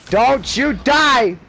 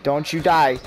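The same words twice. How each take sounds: First: Slow, loud, higher pleading; louder, drawn-out desperate plea. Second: Said in the usual way. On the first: Real, not acted. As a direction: beg him to survive, stretching die. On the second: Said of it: "urging teammate".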